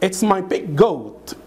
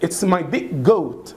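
The two takes are said the same way.

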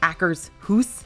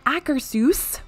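First: The ending sounds like the word 'house'. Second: The ending does not sound like 'house'. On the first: The speaker calls it wrong. "or like Akershus, like house" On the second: The speaker calls it right. "which is what I've been told is how you pronounce it"

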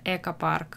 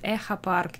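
First: The consonant after the first vowel is k. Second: The consonant after the first vowel is kh. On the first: The speaker calls it right. "нет, это Экопарк" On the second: The speaker calls it wrong. "есть люди, кто говорит Экопарк"

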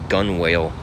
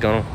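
First: It is said slowly as two separate parts. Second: It is said quickly with the parts run together. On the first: "it's spelled G-U-N-W-A-L-E, so gun whale" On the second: "say it fast, and it sounds like gunwale"

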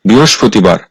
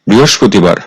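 Both takes have the same delivery.

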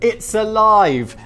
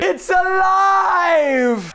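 First: It is said in a flat, plain reading voice. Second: It is said loudly with lots of excited energy.

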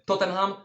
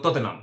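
First: It is pronounced with Polish-style sounds. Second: It is pronounced with English-style sounds. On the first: The speaker calls it wrong. "nie mówimy Tottenham" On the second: The speaker calls it right. "tylko Tottenham"

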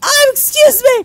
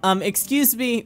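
First: It is said in a put-on character voice. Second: It is said in a natural voice.

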